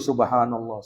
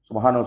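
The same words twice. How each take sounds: First: It is said slowly, with feeling. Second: It is said quickly, in a hurried run. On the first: The words are felt and reflected on. The speaker calls it right. "kita hayati zikir itu" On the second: The words are rushed without thought. The speaker calls it wrong. "Terkadang kan orang mau cepat-cepat"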